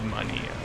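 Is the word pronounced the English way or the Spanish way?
Spanish. The word is pronounced the Spanish way. The speaker calls it wrong. "it's not Mania. Mania is how you will pronounce it in Spanish"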